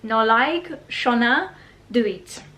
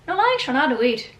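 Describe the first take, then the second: First: It is said in the speaker's own accent. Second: It is said in an Irish accent.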